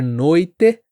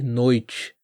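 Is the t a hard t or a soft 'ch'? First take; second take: hard t; soft ch. First: The last syllable has a hard t sound. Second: The last syllable has a soft 'ch' sound. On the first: "Ao invés de" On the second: "você vai ouvir"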